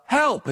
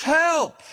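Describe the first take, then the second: First: A mock call upward from the cliff, higher; calling for help. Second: A higher, more desperate mock yell; louder cry for help. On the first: Man on the cliff calls up for help, higher mock call. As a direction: call up for help from a dangling branch. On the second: Stranded man cries louder to the empty sky, desperate mock yell. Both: A narrator's reading. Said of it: "he called up".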